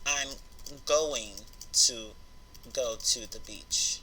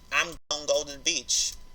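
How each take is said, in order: First: 'Going to' is said in full. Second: 'Going to' is cut short to 'gon'. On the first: "you really mean to say I'm going to go to the beach" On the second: "they just say gon"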